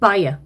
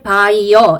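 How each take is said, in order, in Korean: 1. 첫 음절은 부드럽게 약화되어 줄여서 발음합니다. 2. 첫 음절은 완전하고 정확하게 발음합니다. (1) "첫 부분을 좀 둥실둥실하게 이렇게 먹는 발음" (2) "너무 정확하게 by어 이게 아니고"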